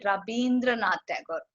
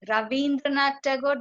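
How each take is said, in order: First: The name is said with a b sound. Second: The name is said with a v sound.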